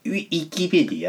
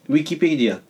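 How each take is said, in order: First: The small 'i' in 'wi' is emphasized. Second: The small 'i' in 'wi' is weak. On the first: "強調してください。" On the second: "ちっちゃい胃がちょっと 弱いの。"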